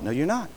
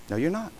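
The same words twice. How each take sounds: First: Quiet firm rebuttal. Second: Softer firm rebuttal. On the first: Preacher answers the sinner. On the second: Repeated, softer still. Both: Real, not acted.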